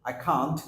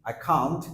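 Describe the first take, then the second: The two takes are said the same way.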